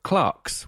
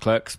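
First: The word has a British pronunciation. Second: The word has an American pronunciation. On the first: "the correct British English way of Clerks" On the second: "Clerks is pronounced Clerks because it's an American film"

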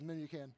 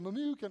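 First: The name is said in its plain form. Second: The name sounds like a video-game fighting move. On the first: The speaker calls it right. "I'll try to say Memucan" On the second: The speaker calls it wrong. "I'll try not to say Mamukin"

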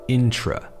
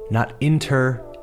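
First: The vowel after the t is reduced with 'tr'. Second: The vowel after the t is a full 'er'. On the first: The speaker calls it right. "say intra" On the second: The speaker calls it wrong. "Don't say inter"

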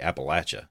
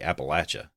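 First: It uses the pronunciation used by locals. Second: It uses the pronunciation used by locals.

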